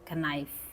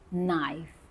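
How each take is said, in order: First: A K sound is pronounced at the start. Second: No K sound is pronounced at the start. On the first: The speaker calls it wrong. "you cannot say knife, knife. That's wrong" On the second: The speaker calls it right. "K is silent"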